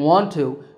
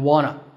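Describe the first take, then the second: First: Both words are said fully and separately. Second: The words blend into one reduced form.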